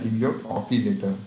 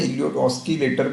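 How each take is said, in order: First: The word has no s sound before k. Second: The word has an s sound before k. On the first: This is the real pronunciation. The speaker calls it right. "सही में इसका pronunciation होता है" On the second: This is how most people say it. The speaker calls it wrong. "कई लोग कहते हैं इलियोट ऑस्किलेटर भी कहते हैं"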